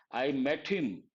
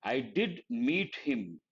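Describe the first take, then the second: First: Said in the usual way. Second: Slow, with "did" stressed. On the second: Shown as a demonstration. Teacher showing the emphatic form, stressing "did". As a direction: say "did" firmly and slowly.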